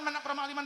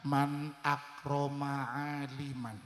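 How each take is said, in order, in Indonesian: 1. Frasa itu diucapkan dengan cepat. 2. Frasa itu diucapkan dengan lambat. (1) "Terlalu cepat" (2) "saya lambatkan"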